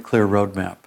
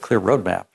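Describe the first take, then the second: First: It is said warmly and sincerely. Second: It is said with a disgusted, dismissive tone. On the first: The speaker respects what matters to the listener. The speaker calls it right. "I can say that in a way that's really congruent with her" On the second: The speaker dislikes the idea. The speaker calls it wrong.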